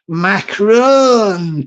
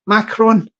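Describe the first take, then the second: First: Drawn-out French pronunciation of Macron; French accent. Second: Said in the usual way. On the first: Pretend. Trying out the French president's name, French accent. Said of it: "parlez-vous français accent". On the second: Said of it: "President Macron".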